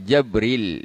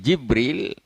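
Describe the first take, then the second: First: The first vowel is an 'a' sound. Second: The first vowel is an 'i' sound. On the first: "dengan fathah" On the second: "bil kasri"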